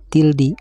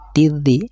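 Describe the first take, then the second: First: An L sound is heard before the consonant. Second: The L merges into a doubled consonant. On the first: The speaker calls it wrong. "tidak boleh dibaca tildi" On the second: The speaker calls it right. "harus dilewati membacanya"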